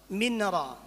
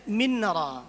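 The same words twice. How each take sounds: Both takes have the same delivery.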